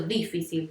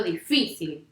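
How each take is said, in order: First: Difícil said as DI-fi-cil, wrong stress; DI-ficil, low rejected example; stress on first syllable. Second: Difícil said as di-FI-cil; di-FI-cil, corrected stress; stress on middle syllable. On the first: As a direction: hit the opening DI of difícil. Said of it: "no digo difícil". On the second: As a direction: lean on the FI of difícil, then fall. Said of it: "digo difícil". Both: Shown as a demonstration.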